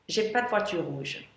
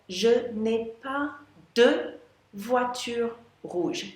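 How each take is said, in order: First: It is said quickly, with 'ne' dropped. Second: It is said fully, with 'ne' pronounced.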